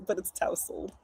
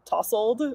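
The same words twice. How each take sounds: First: Tousled with an ow vowel as in house; careful correct tousled; correct pronunciation. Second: Tousled said like tussled, short ah vowel; "tousled" with the vowel of tussle; casual everyday tousled; how I usually say it. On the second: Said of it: "I always say". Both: Shown as a demonstration.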